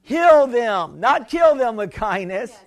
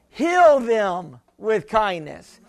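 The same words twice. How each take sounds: First: "Heal them" stressed, "kill" rising in contrast. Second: "Heal" drawn out slowly; slow, deliberate "Heal them with kindness"; final emphatic restatement; stress on HEAL. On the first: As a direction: set "Heal" against "kill". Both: Shown as a demonstration. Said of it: "I'd rather say it this way".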